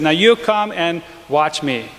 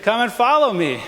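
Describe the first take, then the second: First: Said in the usual way. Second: Correcting the quote, stressing follow. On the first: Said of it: "No, he didn't say". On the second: Shown as a demonstration. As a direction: follow lifted high and leaned on. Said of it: "He said".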